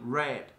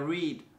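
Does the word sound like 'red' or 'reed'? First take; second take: red; reed. First: The word is said with a short 'e' vowel. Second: The word is said with a long 'ee' vowel. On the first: The reading happened in the past. "cách đọc thì lại hoàn toàn khác biệt ... dạng quá khứ" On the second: The reading happens regularly in the present. "bạn đọc sách mỗi ngày chúng ta có I read books every day"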